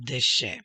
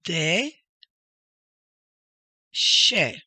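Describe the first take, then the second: First: DESHE joined up as one word; whole word. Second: DE and SHE far apart, each loud; two separate emphatic syllables, de ... she. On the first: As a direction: blend de and she into Deshe, falling. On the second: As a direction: sound out de, then she, higher and louder. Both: Shown as a demonstration. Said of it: "The next one is".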